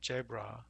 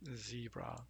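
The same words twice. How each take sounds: First: The first sound is not an English z. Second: The first sound is an English z. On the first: The speaker calls it wrong. "Instead of a zebra" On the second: The speaker calls it right. "you'd say uh, zebra"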